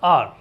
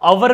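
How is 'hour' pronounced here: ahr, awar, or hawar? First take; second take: ahr; awar. First: It has no h, as one long syllable. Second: It has no h, with two syllables. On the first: The speaker calls it right. "ठीक है ना ऐसे" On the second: The speaker calls it wrong. "अवर भी गलत है"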